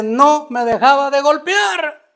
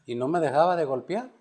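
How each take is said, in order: First: Louder, higher, slower refrain; building to the climax of the story; emphatic climax. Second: Said in the usual way. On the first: Retold or imitated. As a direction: hammer the line as the fight turns.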